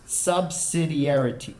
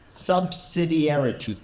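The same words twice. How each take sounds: The two takes are said the same way.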